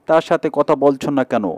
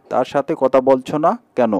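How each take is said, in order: Both takes have the same delivery.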